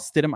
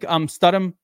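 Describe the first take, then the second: First: The first syllable sounds like 'stid'. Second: The first syllable sounds like 'stud'. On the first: This is the player's actual name. "I know he's Stidham" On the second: The player is being praised as a stud. "I call him Studham because he's a stud"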